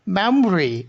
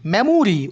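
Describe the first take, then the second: First: মেমোরি in two syllables, "MEM-ri"; syncope, o dropped. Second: মেমোরি in three syllables, "me-mu-ri"; unshortened form. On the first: Teacher demonstrates elision to students, মেমোরি as "memri". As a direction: drop the middle o in মেমোরি: "memri". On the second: Teacher gives students the full word, মেমোরি as "me-mu-ri". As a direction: sound the middle vowel in মেমোরি. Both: Shown as a demonstration. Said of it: "উর উচ্চারণটাকে এলিশন করা হয়".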